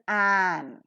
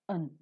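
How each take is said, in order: First: The vowel is full and clear. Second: The vowel is reduced to a weak schwa. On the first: "strongly pronounced as an" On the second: "always reduced to its weak form"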